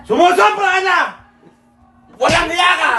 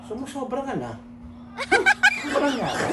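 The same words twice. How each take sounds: First: High, loud acted outburst; hammed-up angry shout. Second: Softly teasing, lightly sarcastic; understated mocking taunt. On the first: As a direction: yell it high in mock fury, pausing midway. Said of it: "Hindi, galit". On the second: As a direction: needle them quietly, pausing between phrases. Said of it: "parang nangaasar mo". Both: Shown as a demonstration.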